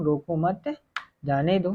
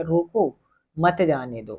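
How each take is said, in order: First: "रोको मत" as one group, a break, then "जाने दो"; pause after मत. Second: "रोको" alone, a break, then "मत जाने दो" falling; pause after रोको. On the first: Teacher shows the let-him-go reading, pause after "मत". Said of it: "तो यानी रोकना नहीं है". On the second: Teacher shows the stop-him reading, pause after "रोको". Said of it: "उसे रोक लो, कहीं जाने नहीं देना". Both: Shown as a demonstration.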